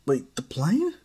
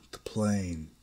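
First: Higher and louder, rising on "plane?"; "the plane?" asked high with a sharp rise; startled question. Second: Said in the usual way. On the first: Acted. Izuku asking Darth Maul, startled and rising.

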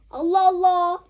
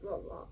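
First: Allah Allah exclaimed louder, exasperated. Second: Allah Allah barely voiced, much softer; muttered Allah Allah. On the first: Pretend. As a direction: throw up your hands in mock exasperation, Allah Allah. Exasperated mother scolding child. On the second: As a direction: sigh Allah Allah almost to yourself. Same exclamation, now barely audible.

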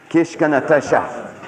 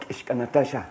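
First: Kishka Natasha said slowly and louder, each syllable set out; slow model for repeating. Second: Said in the usual way. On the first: Shown as a demonstration. Teacher modeling the word for listeners to echo, slow and clear. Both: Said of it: "Can you say this word?".

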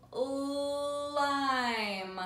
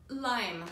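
First: "Lime" with a long-held l; first sound stretched. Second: Said in the usual way. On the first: Shown as a demonstration. Teacher showing the first sound, long l on "Lime". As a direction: draw out the l at the start of "Lime". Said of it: "Ol's the first sound". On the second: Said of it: "What does lime start with?".

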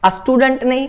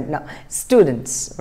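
First: "a student" said as the learners' mistake, slightly higher; teacher shows the common plural mistake; wrong "a student". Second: "students" very slow with a final s; teacher gives the correct plural "students". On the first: Retold or imitated. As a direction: show the error "a student". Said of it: "कई लोग ये भी बोलते हैं a student". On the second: Shown as a demonstration. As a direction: stretch "students" and hit the s at the end.

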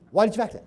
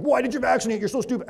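First: Said in the usual way. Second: Higher, scornful "Why did you vaccinate?" then a sneering "You're so stupid."; mock the patient as if they were dumb; a demo of the wrong, belittling way to ask; condescending put-down. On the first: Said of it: "I say". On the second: Shown as a demonstration. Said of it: "I don't say it like".

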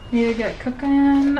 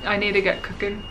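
First: Playful repeat. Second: Said in the usual way. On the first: Pretend. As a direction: lift the pitch on a playful echo. Playfully repeats her own line.

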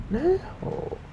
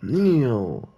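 First: "Neil" said as a high rising drawn "Nah" the way the character does; imitating his pronunciation. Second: Said in the usual way. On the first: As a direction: mimic how the character says "Neil", high and stretched. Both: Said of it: "That's how he says it".

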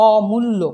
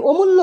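First: অমূল্য with drawn-out open "aw"; natural vowel. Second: অমূল্য with closed "o" first vowel; rejected O form. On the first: Teacher giving the correct form, অমূল্য with open aw. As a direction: say অমূল্য as "aww-mullo". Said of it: "অ দিয়ে উচ্চারণ করেছি". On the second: Teacher showing what was not said, অমূল্য with closed o. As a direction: say অমূল্য as "o-mullo". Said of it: "অমূল্য উচ্চারণ করিনি". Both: Shown as a demonstration.

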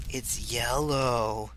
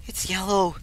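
First: Slow. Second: Excited. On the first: Slow repeat. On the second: Said twice, excited then slow. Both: Real, not acted.

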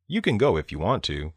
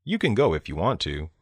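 No difference in how they are said.

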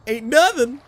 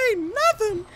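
First: Higher-pitched, punchy boast; playful, raised-voice swagger; emphatic boast. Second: Very high-pitched mock boast; playful falsetto swagger; silly high voice. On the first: Pretend. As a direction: boast it up high with force. Repeats boast, changing the voice. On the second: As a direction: squeak the boast out far above your voice. Repeats boast in put-on voice.

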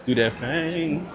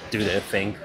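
First: Higher, slow and savoring; slow, drawn-out mock posh. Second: Said in the usual way. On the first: Shown as a demonstration. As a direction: stretch it out, mocking the rich.

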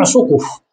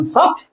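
First: سقف with "u" after both sin and qaf; damma on sin and qaf. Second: سقف with "a" after sin and no vowel after qaf; fatha on sin, silent qaf. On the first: Teacher gives the plural form, سقف pronounced "suquf". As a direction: say سقف as "suquf", two syllables. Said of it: "ضمت السين والقاف". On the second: Teacher gives the singular word, سقف pronounced "saqf". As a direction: say سقف as "saqf", one syllable. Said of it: "السين مفتوحة والقاف ساكنة". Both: Shown as a demonstration.

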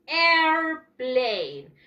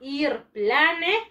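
First: "airplane" said in English as "air-plein", silent final e; "airplane" slowly, long on "air", falling on "plane"; correct pronunciation. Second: "airplane" read as written in Spanish, "a-ir-pla-ne"; "airplane" with Spanish vowels and a spoken final e; spelling pronunciation. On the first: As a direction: draw "airplane" out in two English syllables. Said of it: "y se pronuncia". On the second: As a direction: sound every letter of "airplane" the Spanish way. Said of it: "Se escribe". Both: Shown as a demonstration.

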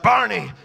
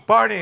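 First: Louder mother screaming the name. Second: Even louder scream of the name. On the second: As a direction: call out in panic. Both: Retold or imitated. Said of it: "she starts screaming".

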